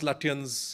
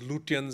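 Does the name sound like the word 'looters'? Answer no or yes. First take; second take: no; yes. First: The name is said in its usual way. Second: The name is said to sound like looters. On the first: The speaker calls it right. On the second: The speaker calls it wrong.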